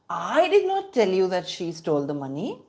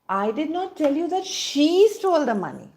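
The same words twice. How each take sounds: First: The word I is stressed. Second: The word she is stressed. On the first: Someone else told you. "which means I did not tell you, somebody else told you" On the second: Someone other than her stole the money. "The emphasis is on she"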